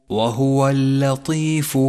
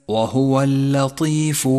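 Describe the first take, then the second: Both takes have the same delivery.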